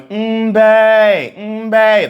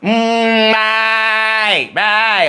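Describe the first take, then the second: First: The voice is plain, without whininess. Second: The voice is whiny and bleating, like a sheep.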